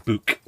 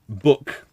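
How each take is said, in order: First: It is said in a Liverpool accent. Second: It is said in a general UK accent. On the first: "which is how you say it up in uh, in Liverpool way" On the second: "which is I think how most of the U K says it"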